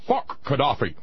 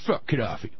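First: It is said in a put-on imitating voice. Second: It is said in the speaker's normal voice.

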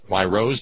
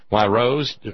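First: It is said in a Midwestern US accent. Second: It is said in a Southern US accent. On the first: The speaker calls it right. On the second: The speaker calls it wrong.

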